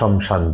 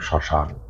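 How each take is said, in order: First: The word begins 'shom' with a vowel. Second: The word begins with a tight 'shm' cluster. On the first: This is how a spiritual practitioner says it. "তার মুখ থেকে শমশানই বেরোবে" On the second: This is how ordinary people say it. "এটা সাধারণ মানুষের শব্দ চয়ন শ্মশান"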